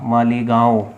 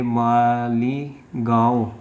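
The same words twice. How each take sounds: First: Said in the usual way. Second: Malegaon stretched out slowly, syllable by syllable; slow dictation. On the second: Real, not acted. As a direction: draw out Malegaon as if writing it. Spelling out place while writing. (Malegaon को धीरे-धीरे खींचकर बोलना)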